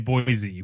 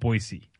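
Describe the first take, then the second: First: The middle consonant is a Z sound. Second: The middle consonant is an S sound. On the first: This is how it is said in the show. The speaker calls it wrong. "they say Boise with the Z sound" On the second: This is how locals say it. The speaker calls it right. "But locals pronounce it Boise"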